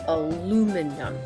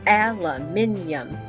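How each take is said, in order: First: It is said with an American accent. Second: It is said with a British accent. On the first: "the American is aluminum" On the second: "the British goes aluminium"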